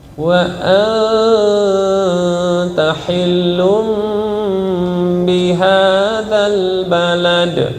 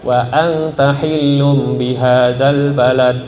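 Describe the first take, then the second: First: The nasal m and n sounds are held long. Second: The nasal m and n sounds are cut short. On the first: The speaker calls it right. "Harusnya yang mim nun berwarna tahannya" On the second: The speaker calls it wrong.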